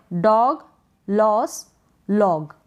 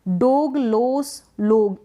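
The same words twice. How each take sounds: First: डॉग, लॉस, लॉग with open "aw" vowels; open-o pronunciation. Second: डोग, लोस, लोग with closed "oh" vowels; wrong long-o reading. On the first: Teacher lists correct readings for learners, open-o डॉग, लॉस, लॉग. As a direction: say डॉग, लॉस, लॉग as "dawg, laws, lawg". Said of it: "इस तरीके से आप अगर". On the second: Teacher shows learners the mistake, closed-o डोग, लोस, लोग. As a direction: say डोग, लोस, लोग as "dohg, lohs, lohg". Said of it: "बिल्कुल गलत हो जाएगा". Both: Shown as a demonstration.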